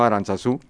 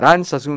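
First: The stress is on the last syllable. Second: The stress is on the second syllable. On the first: The speaker calls it wrong. "no lleva el acento en la U" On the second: The speaker calls it right. "lo lleva en la segunda A"

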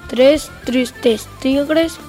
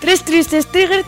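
First: The phrase is spoken slowly. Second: The phrase is spoken quickly. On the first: "Vamos con la velocidad lenta" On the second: "Y vamos con la velocidad rápida"

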